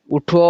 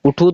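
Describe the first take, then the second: First: اٹھو said as "uṭho", ending in o; اٹھو with a clear final o, as in "wake up"; اٹھو ending o, not u; correct pronunciation. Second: اٹھو said as "uṭhu", ending in u; اٹھو with a final u, the mistaken reading; اٹھو ending u, not o; wrong pronunciation. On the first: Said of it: "اٹھو تو نہیں ہوتا". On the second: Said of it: "اگر اٹھو پڑھیں گے تو غلط ہو جائے گا". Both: Shown as a demonstration.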